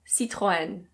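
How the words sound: It is said with a French pronunciation. "In French, this is pronounced Citroën"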